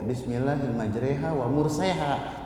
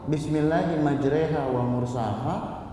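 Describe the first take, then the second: First: The vowel after s is an e. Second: The vowel after s is a plain a. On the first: The speaker calls it wrong. "Enggak ada yang wa murseha" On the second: The speaker calls it right. "memang dari sonanya seperti itu"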